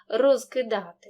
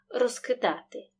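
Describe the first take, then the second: First: The prefix ends in a clear voiced z. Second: The prefix ends in a voiceless s sound. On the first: It is the careful, slow pronunciation. "За умови повільної вимови кінцевий приголосний префікса вимовляємо чітко. Оглушення не відбувається" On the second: It is the fast pronunciation. "За швидкої вимови цей приголосний переходить у парний глухий"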